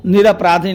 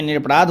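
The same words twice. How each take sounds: First: "निरपराधी" said ending in long i; the incorrect "निरपराधी"; wrong form. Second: "निरपराध" said without final i; the correct "निरपराध", ending in dh; correct form. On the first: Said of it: "निरपराधी नहीं". (गलत रूप "निरपराधी") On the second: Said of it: "निरपराध होता है". (सही रूप "निरपराध") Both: Shown as a demonstration.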